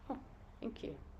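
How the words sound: It sounds calm and measured.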